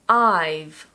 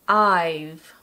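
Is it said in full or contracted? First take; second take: contracted; contracted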